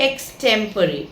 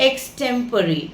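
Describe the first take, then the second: Both takes have the same delivery.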